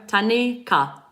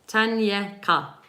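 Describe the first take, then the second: First: No Y sound is heard in the middle. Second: A Y sound is heard in the middle. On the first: "The Y is, you don't really hear it" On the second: "Am I saying it right?"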